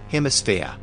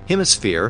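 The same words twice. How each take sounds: First: The word ends with an uh sound, no r. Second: The word ends with a clear r sound.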